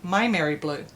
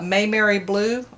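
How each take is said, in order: First: The name begins with a 'my' sound. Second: The name begins with a 'may' sound. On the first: The speaker calls it right. "she corrected me and she said it's like my, like My Mary" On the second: The speaker calls it wrong. "I used to call it Mayberry Blue"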